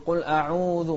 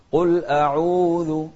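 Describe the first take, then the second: First: قل أعوذ with the و of أعوذ pushed through the nose; أعوذ said nasal, from the nose; wrong way. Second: قل أعوذ with the و of أعوذ from the throat, open; أعوذ long و drawn from the chest, not the nose; correct way. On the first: Teacher imitating the nasal mistake in أعوذ. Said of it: "ما نطلع من الخيشوم". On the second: Teacher showing pupils the open chest vowel. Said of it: "انطلع من الجوف". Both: Shown as a demonstration.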